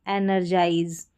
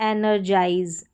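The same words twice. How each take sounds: No difference in how they are said.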